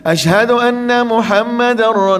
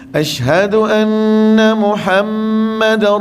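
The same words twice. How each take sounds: First: The nasal sound in 'anna' is short and hurried. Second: The nasal sound in 'anna' is held long. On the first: The caller seems in a hurry to leave. The speaker calls it wrong. "nampak macam lorak nak pergi" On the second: It sounds more refined and polite. The speaker calls it right. "kalau boleh bunyi dengung dia tu"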